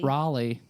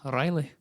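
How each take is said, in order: First: The name is said in a Baltimore accent. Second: The name is said in a standard accent.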